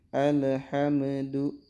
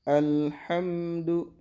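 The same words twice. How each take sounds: First: The L sound is released with a bounce. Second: The L sound is held without a bounce. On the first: The speaker calls it wrong. "Nah itu mantul" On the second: The speaker calls it right. "Jadi bacanya alhamdu"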